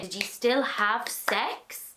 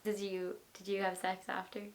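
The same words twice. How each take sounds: First: Said in the usual way. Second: Dropped to a soft hush, lower. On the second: Real, not acted. Asking the guest about sex after, in a soft hush. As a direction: lean in and ask it softly, conspiratorially. Quietly asking a cheeky question.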